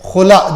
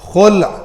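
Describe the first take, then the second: First: The word ends with an added vowel sound. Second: The word ends on the bare consonant. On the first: The speaker calls it wrong. "गलत तलफ़ुज़ है" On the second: The speaker calls it right. "लाम साकिन है, खुल इसका असल pronunciation है अरबी में"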